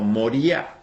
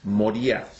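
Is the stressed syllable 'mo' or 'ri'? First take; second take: ri; ri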